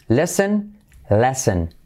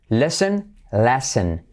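No difference in how they are said.

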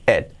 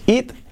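First: The vowel is a lax, 'eh'-like sound. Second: The vowel is a tense 'ee' sound. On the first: The speaker calls it right. "la I como una E" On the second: The speaker calls it wrong. "no es it"

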